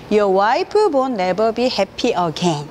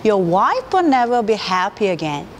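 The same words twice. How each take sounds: First: Wife as 와이프, each syllable hit separately, very slow; Your wife won't never be happy again chopped Korean-style, syllable by syllable; Korean staccato. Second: Wife as one syllable, words linked smoothly; Your wife will never be happy again in smooth native rhythm; smooth English. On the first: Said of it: "이렇게 한국식의 스타카토로 또박또박 발음하게 되겠죠". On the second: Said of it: "이병헌 씨가 이걸 발음할 때는". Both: Shown as a demonstration.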